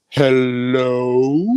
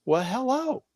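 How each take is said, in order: First: Pointed hello. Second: High, startled return greeting; a flustered, higher well hello; surprised hello. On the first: Stranger pointedly greets in elevator. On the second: Mother caught off guard by stranger's pointed greeting, startled. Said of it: "And my mom went". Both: Retold or imitated.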